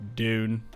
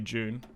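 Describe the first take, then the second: First: It is said with an American accent. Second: It is said with an Australian accent.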